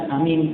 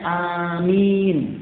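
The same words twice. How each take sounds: First: The vowels after a and m are kept short. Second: The vowels after a and m are drawn out long. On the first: It is a person's name. The speaker calls it wrong. "Bukan amin. Karena itu nama orang" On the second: It is the prayer response said after the Fatihah. The speaker calls it right. "alifnya mamdud dan mimnya mamdud. Sehingga bacanya amin"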